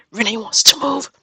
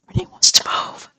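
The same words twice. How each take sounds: First: Higher, excited burst; thrilled announcement. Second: Unvoiced, awed whisper; stunned whisper. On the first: Gamer reacting to her villager wanting to move, excited. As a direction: break the big news in delight. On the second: Gamer repeating the villager's news, stunned whisper. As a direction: whisper it like you can't believe it. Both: Real, not acted.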